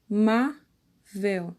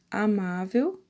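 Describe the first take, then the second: First: A, má, vel, slowly with pauses between; separated syllables. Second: Said in the usual way. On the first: Shown as a demonstration. Teacher counting out amável's syllables for pupils, split apart. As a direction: break amável into three slow, distinct syllables. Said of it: "a quantidade de sílabas de cada palavra". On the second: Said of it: "a sílaba mais forte".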